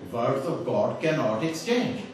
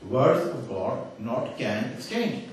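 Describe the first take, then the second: First: Slow, with "cannot" joined in the right order; slow corrected quote. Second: Very slow, with "not can" set apart; slow deliberate misquote. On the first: Speaker showing the intended wording, slow and deliberate. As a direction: give the intended "cannot exchange" slowly. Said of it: "he was actually wanting to say". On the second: Speaker showing swapped words to audience, slow and deliberate. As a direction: lay out each word slowly. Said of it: "he's transposed the can and the not". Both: Retold or imitated.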